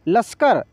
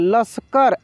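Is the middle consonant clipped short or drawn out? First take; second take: clipped; drawn out. First: The half 'sh' sound is clipped very quickly. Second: The half 'sh' sound is drawn out fully. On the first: The speaker calls it right. "श का उच्चारण इतना तेजी से होगा" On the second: The speaker calls it wrong. "ऐसे नहीं पढ़ेंगे"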